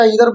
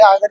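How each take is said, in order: First: "either" said eether, with a long ee at the start; "either" with the first vowel as in see. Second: "either" said aither, starting with the vowel of eye; "either" opening on an eye sound, aither. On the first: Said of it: "pronunciation इसका either बोलते हैं". ("either" को ईदर बोलें) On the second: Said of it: "मैं पहले either ही बोलता था". ("either" को आइदर बोलें) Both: Shown as a demonstration.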